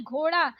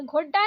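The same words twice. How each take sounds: First: घोड़ा with flapped ड़; correct flapped ड़. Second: घोड़ा with hard ड stop; wrong hard D. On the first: Teacher correcting learners, flapped घोड़ा. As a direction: flick the ड़ in घोड़ा. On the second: Teacher showing learners the mistake, hard-D घोड़ा. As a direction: say घोड़ा with D, no flap. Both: Shown as a demonstration. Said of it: "नहीं".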